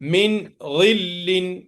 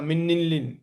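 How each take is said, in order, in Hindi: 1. n अगले शब्द से पहले साफ़ बोला जाता है। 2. n अगले शब्द में मिल जाता है। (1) "या लाहिर करके पढ़ने का" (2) "गलत है"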